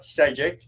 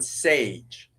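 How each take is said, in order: First: The surname is spoken with two syllables. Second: The surname is one syllable with an ay vowel. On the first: The speaker calls it wrong. "It's not Sejic" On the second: The speaker calls it right. "It's Stepan Sage"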